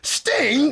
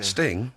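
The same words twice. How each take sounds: First: The name is said with a scornful, disdainful tone. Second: The name is said in a plain, neutral tone. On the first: The artist is looked down on. "it doesn't sound so good" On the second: The artist is thought of as fine. "when you say it like that, Sting, it's fine"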